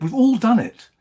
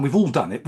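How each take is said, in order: First: Much higher and louder, repeated with force; emotional outburst. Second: Said in the usual way. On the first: Real, not acted. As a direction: burst out with it the second time. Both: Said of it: "you can see I'm quite emotional".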